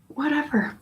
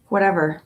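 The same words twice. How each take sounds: First: "Whatever." pitched much higher and softer, falling off; dismissive whatever. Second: Said in the usual way. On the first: Pretend. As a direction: toss "Whatever." up high and let it drop softly. Repeats the word to contrast.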